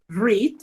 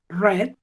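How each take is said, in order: First: It is said as the present tense form. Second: It is said as the past tense form. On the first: The action happens now or habitually. "read en presente" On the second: The action happened in the past. "read en pasado"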